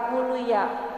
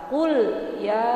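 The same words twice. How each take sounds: First: The l sound is blurred into the next syllable. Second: The l sound is held and clearly pronounced. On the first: The speaker calls it wrong. "bukan kul ya" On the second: The speaker calls it right. "lam matinya harus jel, jelas. Kul ya, seperti itu"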